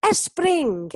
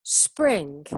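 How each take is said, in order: First: SPRING with an extra "e" in front, "es-pring"; wrong learner pronunciation. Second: "spring" starting straight on the s, no vowel before it; correct English pronunciation. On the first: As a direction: put a Spanish e before Spring, louder and higher. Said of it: "Muchos alumnos dicen". (Spring con una e delante, "espring") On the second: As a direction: lower model "spring", clean s-pr onset. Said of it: "no empieza con E". (spring empezando por la s, sin e delante) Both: Shown as a demonstration.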